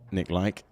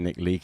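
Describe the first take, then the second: First: The surname rhymes with the word bike. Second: The surname rhymes with the word leak. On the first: The speaker calls it right. "if we get it right" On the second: The speaker calls it wrong. "if we get it wrong"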